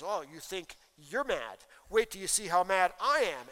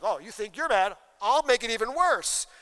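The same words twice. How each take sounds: First: A mock husband escalating the fight; a lightly voiced angry husband; foolish husband, slow then louder taunting. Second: Mock wife raising the stakes; a half-hammed furious wife; angry wife, louder, going one better. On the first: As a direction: throw it back at her, spoiling for a fight. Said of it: "And the foolish guy says". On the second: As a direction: top his anger, louder still. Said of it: "she's like".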